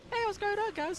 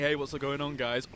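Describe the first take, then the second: First: It is said in a more ladylike voice. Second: It is said in a less ladylike voice.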